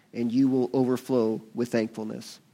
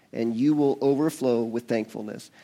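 The two takes are said the same way.

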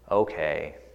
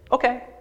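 First: It is said in a reluctant, unwilling tone. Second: It is said in an excited, upbeat tone. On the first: The speaker does not want to do it. "don't really want to do that" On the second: The speaker is happy to do it. "Great, yeah, that's I'm excited"

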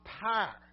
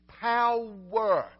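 First: The word is squeezed into one syllable. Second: The word is said clearly as two syllables. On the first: The speaker calls it wrong. "It's not power" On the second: The speaker calls it right. "It's power"

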